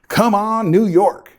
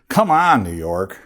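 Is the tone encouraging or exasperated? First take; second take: encouraging; exasperated. First: It sounds encouraging and cheering. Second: It sounds exasperated and complaining. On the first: The speaker is cheering the state on to change. "maybe we'll be saying" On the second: The speaker is frustrated with the state's rules. "Instead of"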